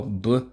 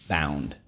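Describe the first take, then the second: First: Letters B-ou-n-d said one by one, rising; spelled out. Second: Said in the usual way. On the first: Shown as a demonstration. Teacher spelling B-ou-n-d aloud for the class to follow. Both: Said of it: "Let's go".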